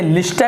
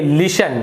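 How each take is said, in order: First: The word is said with a t sound. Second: The word is said without a t sound. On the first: The speaker calls it wrong. "यहाँ पर आप इसे लिस्टन नहीं पढ़ेंगे" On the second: The speaker calls it right. "आप इसे पढ़ेंगे लिशन"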